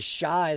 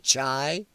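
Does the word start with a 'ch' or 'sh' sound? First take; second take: sh; ch. First: The word begins with a soft 'sh' sound. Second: The word begins with a hard 'ch' sound. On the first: The speaker calls it wrong. "They don't they don't say shy" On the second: The speaker calls it right. "they say the Chai or something like that"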